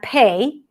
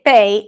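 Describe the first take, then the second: First: The P is said with a puff of air. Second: The P is said without a puff of air.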